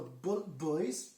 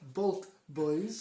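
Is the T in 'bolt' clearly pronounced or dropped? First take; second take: dropped; clear. First: The T in bolt is barely pronounced. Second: The T in bolt is clearly pronounced. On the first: The speaker calls it wrong. "That did not sound like Bolt Boys" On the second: The speaker calls it right. "There you go, you've got to really enunciate that T"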